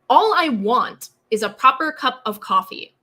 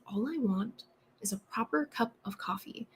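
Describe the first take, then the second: First: It is spoken loudly, with a projected voice. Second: It is spoken softly, at low volume. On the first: "Or an eight" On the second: "maybe a two for me is"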